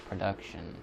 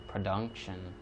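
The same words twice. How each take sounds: The two takes are said the same way.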